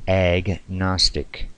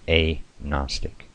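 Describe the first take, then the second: First: The G is sounded before the N. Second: The G is silent before the N. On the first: The speaker calls it wrong. "Most of the uninitiated pronounce the word agnostic" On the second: The speaker calls it right. "With the G being silent"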